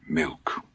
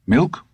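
First: Flat reply. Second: Eager question. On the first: Dusander's flat echo of the boy. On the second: Todd asks, Dusander echoes flat. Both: Acted.

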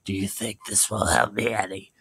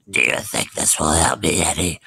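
First: Softer, lightly croaked leper; faint sickly plea. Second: A hint of a low, croaking leper; sickly hobo creeping toward the boy. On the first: Pretend. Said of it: "He's like". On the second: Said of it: "I'll do his voice".

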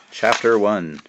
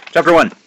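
First: Said in the usual way. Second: Chapter one called out high and loud, like a title card; loud announcement. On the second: Shown as a demonstration. Author hamming up the chapter title, loud announcement. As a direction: announce Chapter one with a big bright lift on chapter.

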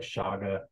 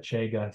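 First: "shaga" with a soft SH and open AH; shaga as SHAH-ga. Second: "chaga" with a long AY, CHAY-ga. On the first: Giving another variant name for the mushroom, "shaga" said SHAH-ga. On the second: Giving a variant name for the mushroom, "chaga" said CHAY-ga. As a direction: say "chaga" to rhyme with Vega. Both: Shown as a demonstration. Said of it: "some people call it".

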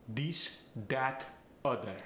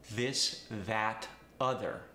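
First: This, that, other said as dis, dat, udder; Farsi accent. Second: Said in the usual way. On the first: Shown as a demonstration. Coach showing a Farsi accent, this and that said dis and dat. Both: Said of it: "A voiced T H gets the D sound".

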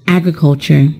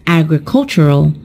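First: "agriculture" with the stress on the first syllable, AG-ri-cul-ture; new word modelled. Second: "agricultural" with the stress on the third syllable, ag-ri-CUL-tur-al; pronounced as a model word. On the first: Teacher introduces "agriculture" to the class, stress on AG. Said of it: "we have another new word". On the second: Teacher models the adjective "agricultural", stress on CUL. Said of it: "the stressed syllable is also changed". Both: Shown as a demonstration.

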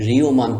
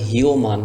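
First: রিওমান said as "rioman" with an r; রিওমান, the correct r reading. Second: হিওমান said with an h, "hioman"; হিওমান, the mistaken h sound; wrong h reading. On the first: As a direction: start রিওমান on a clear r, no h. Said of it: "রিওমান পড়তে হবে". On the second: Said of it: "তাহলে কিন্তু উচ্চারণ সঠিক হবে না". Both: Shown as a demonstration.

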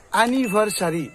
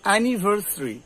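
First: অ্যানিভার্সারি as "a-ni-bhar-sa-ri"; full "sa" in অ্যানিভার্সারি; five syllables, "anivarsari", for অ্যানিভার্সারি; common mispronunciation. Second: অ্যানিভার্সারি as "a-ni-var-sri"; correct pronunciation. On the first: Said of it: "এই উচ্চারণটা ভুল করি". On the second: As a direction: drop the vowel between s and r in অ্যানিভার্সারি. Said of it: "উচ্চারণটা কি হবে". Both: Shown as a demonstration.

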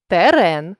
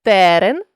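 First: Терен with final РЕН stressed; stress on last syllable. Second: Терен with ТЕ stressed; stress on first syllable. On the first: Teacher means territory, терен stressed on РЕН. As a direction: land on РЕН ending терен. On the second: Teacher means a plant, Терен stressed on ТЕ. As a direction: punch the opening ТЕ of Терен. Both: Shown as a demonstration. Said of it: "залежно від наголосу".

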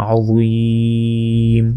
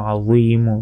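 First: আযীম with a very long ী, closed on ম; stopping form. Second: আযীমু with the final মু sounded; continuing form. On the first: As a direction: stretch the middle of আযীম for three beats. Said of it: "তিন আলিফ". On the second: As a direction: say আযীমু briskly with its end vowel. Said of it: "থামলে". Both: Shown as a demonstration.

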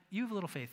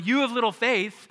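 First: Soft, gentle rebuke, no punch. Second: Louder rebuke, raised over crashing waves. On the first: Jesus gently rebuking the scared disciples, softly. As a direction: say it quietly, not as a blow. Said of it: "It's not this power pa-, power punch". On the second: Jesus rebuking the disciples over the waves, raised voice. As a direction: call it out over the storm. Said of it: "as he's going". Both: Retold or imitated.

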